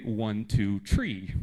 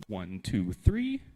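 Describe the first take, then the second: First: "tree" for three, with a plain t in place of th; Irish-style th as t. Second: Said in the usual way. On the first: Shown as a demonstration. Teacher showing how the Irish count, "tree" said with t for th. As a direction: count out slowly, ending on "tree" with a hard t. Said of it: "if you go to Ireland". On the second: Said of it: "I am from the U S, so when I count, I go".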